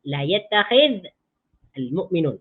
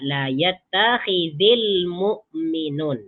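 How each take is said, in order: First: The verb ends in a bare consonant, unlinked. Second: The verb ends in an i vowel linked onward. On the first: This is the underlying original form. "Asal dia" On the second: This is how the phrase is actually read. "jadi dibaca"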